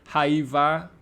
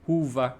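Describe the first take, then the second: First: The first vowel sounds like 'eye'. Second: The first vowel sounds like 'oo'.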